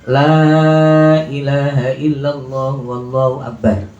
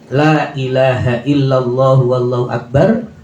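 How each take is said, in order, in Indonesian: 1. Vokal 'la' yang pertama dibaca panjang. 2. Vokal 'la' yang pertama pendek.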